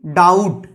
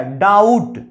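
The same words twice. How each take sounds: First: डाउट said with no b before the t; डाउट as "daut"; silent b. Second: डाउट with no b sound; डाउट again as "daut"; silent b. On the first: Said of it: "बी silent है यहाँ पे". (डाउट, बी silent) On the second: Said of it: "इसको डाउट पढ़ते हैं क्या". (डाउट बिना बी के) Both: Shown as a demonstration.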